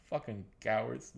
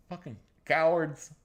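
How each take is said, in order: First: Said in the usual way. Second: Loud scorn. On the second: Real, not acted.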